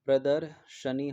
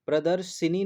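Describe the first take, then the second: First: प्रदर्शनी slowly, split before 'sha-nee'; correct 'sha' vowel. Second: प्रदर्शिनी with 'shi' in the middle; wrong 'i' vowel. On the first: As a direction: say pradar, then sha-nee in प्रदर्शनी. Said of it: "प्रदर्शनी होता है". (प्रदर्शनी, धीरे, बिना मात्रा का 'श') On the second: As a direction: say pra-dar-shi-nee for प्रदर्शिनी. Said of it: "प्रदर्शिनी नहीं होता है". (प्रदर्शिनी, 'शि' पर छोटी इ) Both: Shown as a demonstration.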